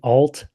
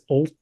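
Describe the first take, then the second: First: The word is pronounced the plain English way. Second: The word is pronounced the Swedish way. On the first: "instead of saying alt" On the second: "I'm gonna say it as alt because it's Swedish"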